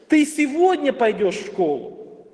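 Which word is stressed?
сегодня. The stress falls on the word сегодня. The question is about when it happens. "Теперь мы переносим это ударение на второе слово"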